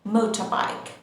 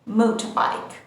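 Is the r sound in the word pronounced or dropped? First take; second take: dropped; dropped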